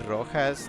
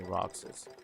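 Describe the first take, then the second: First: The middle consonant is sounded as h. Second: The middle consonant is sounded as ks. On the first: It becomes the word for red. The speaker calls it wrong. "if you say Rojas, that's just red" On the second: It is the character's actual name. The speaker calls it right. "We just say Roxas"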